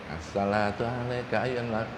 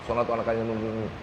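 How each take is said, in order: First: The phrase is recited at a calm, unhurried pace. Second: The phrase is recited quickly and hurriedly.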